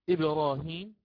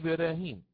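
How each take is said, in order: First: The r sound is heavy and thick. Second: The r sound is light and thin. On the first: "يقرأه بالتفخيم في الراء" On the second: "لقرأنا بالترقيق وقلنا إبراهيم"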